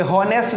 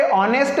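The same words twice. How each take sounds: First: हॉनेस्ट with the H sounded; wrong pronunciation. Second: ऑनेस्ट with a silent H; correct pronunciation. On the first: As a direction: say हॉनेस्ट with an audible H at the start. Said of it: "ये हॉनेस्ट नहीं है दोस्तों". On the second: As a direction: start ऑनेस्ट straight on the open O vowel. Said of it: "यहाँ पर इसको ऑनेस्ट क्या पढ़ते हैं". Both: Shown as a demonstration.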